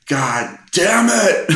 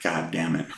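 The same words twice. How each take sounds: First: Slow, high-pitched exasperated yell; re-enacted shout of someone at the breaking point; exasperated outburst. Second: Quietly retold grumble; subdued exasperation. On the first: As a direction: draw the curse out loudly, pitch jumping way up. Retold outburst as music restarts. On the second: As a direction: curse softly, holding the annoyance in. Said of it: "you know, I'm grimacing".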